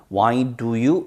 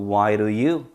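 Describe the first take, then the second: First: "Why do you" with a clear, separate "do"; full careful pronunciation. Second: "Why do you" with "do" softened to "ru"; reduced linked pronunciation. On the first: Teacher showing students the unreduced form, careful "Why do you". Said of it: "아니고요". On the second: Teacher showing sound reduction, linked "Why do you". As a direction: run "Why do you" together like "why-ru-you". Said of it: "루 발음으로 이해하면 되죠". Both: Shown as a demonstration.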